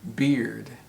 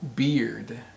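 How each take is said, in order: First: The vowel sounds like the one in ear. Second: The same.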